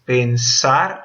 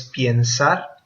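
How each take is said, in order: First: "pensar" split slowly, pen-SAR; plain e, weight on sar in "pensar"; stress on final syllable. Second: "piensar" slowly with ie, pyen-SAR; wrong infinitive. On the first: Teacher shows students the infinitive, "pensar" stressed on SAR. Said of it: "Porque sar no está". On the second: Teacher shows students the false infinitive, "piensar" with an ie glide. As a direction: put a false diphthong in "piensar". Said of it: "no es piensar". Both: Shown as a demonstration.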